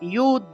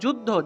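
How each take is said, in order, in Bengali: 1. শব্দটি y ধ্বনি দিয়ে শুরু হয়। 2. শব্দটি j ধ্বনি দিয়ে শুরু হয়।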